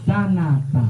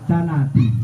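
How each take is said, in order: First: The word ends with an 'a' vowel. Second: The word ends with an 'i' vowel. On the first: The speaker calls it right. "Bacanya yang benar mana?" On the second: The speaker calls it wrong. "Nah ini nggak tepat"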